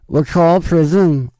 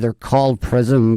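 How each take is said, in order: First: It is said in a put-on Liverpool accent. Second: It is said in the speaker's own accent.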